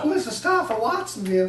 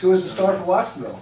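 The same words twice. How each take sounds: First: It is said in a put-on, unusual voice. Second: It is said in the speaker's normal voice.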